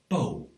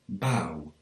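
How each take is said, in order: First: The vowel is a plain 'oh'. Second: The vowel glides like 'ow'. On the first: This is the usual way elsewhere. "rather than" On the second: This is the local way of speaking. "it's more likely to be pronounced like ow"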